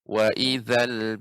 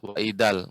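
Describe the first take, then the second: First: The middle consonant is made with tongue at teeth. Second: The middle consonant is a plain d sound. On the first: The speaker calls it right. "Za ini ujung lidah dengan gigi seri atas" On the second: The speaker calls it wrong. "Tidak wa ijal atau wa idal"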